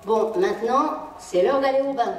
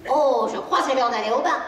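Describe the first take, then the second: First: Plain firm "c'est l'heure d'aller au bain"; flat command. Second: Airy, casual "Oh, je crois que c'est l'heure d'aller au bain"; light suggestion. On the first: Parent ordering the child to the bath, matter-of-fact. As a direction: announce bath time as an order. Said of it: "au lieu de dire à un enfant". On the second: Parent suggesting bath time to the child, lightly. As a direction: make it sound like a gentle discovery. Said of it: "Vous dites". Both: Shown as a demonstration.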